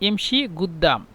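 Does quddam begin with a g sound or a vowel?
g sound. The word quddam begins with a g sound. "মিশরের এবং সৌদি আরবদের আঞ্চলিক ভাষা"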